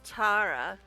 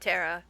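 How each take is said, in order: First: The name is said with a British accent. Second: The name is said with an American accent. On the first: "the way the British pronounce Tara" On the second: "All us silly Americans just say Tara"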